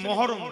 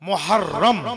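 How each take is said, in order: First: The first syllable is said as 'mo'. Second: The first syllable is said as 'muh'. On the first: The speaker calls it wrong. "Actually মহরম নয়" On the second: The speaker calls it right. "মুহররম, হ্যাঁ, মহরম নয়"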